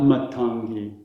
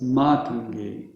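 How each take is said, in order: First: "Matangi" as mut-TAHN-gee; short MAT, long TAN in "Matangi"; wrong short first A. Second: "Matangi" as MAA-tun-gee; long MA, light short TAN in "Matangi"; long first A. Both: Shown as a demonstration. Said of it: "it's the opposite of that".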